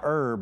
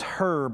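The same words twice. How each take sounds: First: The word begins with a silent h. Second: The word begins with an audible h sound. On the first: The speaker calls it wrong. "and not herb" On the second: The speaker calls it right. "that's pronounced herb ... It has an H on it"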